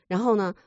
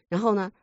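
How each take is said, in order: The two takes are said the same way.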